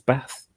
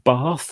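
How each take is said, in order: First: The vowel is short, northern Manchester style. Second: The vowel is long, southern style.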